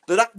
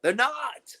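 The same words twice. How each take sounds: First: NOT pushed louder; louder emphatic no. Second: Said in the usual way. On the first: Real, not acted. Repeating to customers, louder on not. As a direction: slam the word not. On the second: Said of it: "They're not gonna do that".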